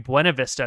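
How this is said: The name has a Spanish pronunciation. This follows the original Spanish word. "it's supposed to be Buena Vista"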